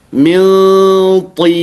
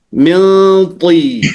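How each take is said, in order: Both takes have the same delivery.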